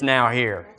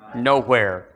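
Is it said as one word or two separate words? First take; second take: two words; one word. First: It is split into two separate words. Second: It is run together as one word. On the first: The opportunity is present at this moment. The speaker calls it right. "It's now here" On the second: The opportunity is absent. The speaker calls it wrong. "It's not that other word. Nowhere"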